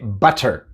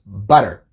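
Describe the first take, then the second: First: The t is a clear, crisp t sound. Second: The t is a soft flap like d. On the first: The speaker calls it wrong. "No se dice butter" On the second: The speaker calls it right. "decimos butter"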